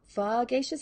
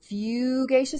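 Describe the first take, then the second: First: The first vowel is a short 'uh' sound. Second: The first vowel is a long 'oo' sound.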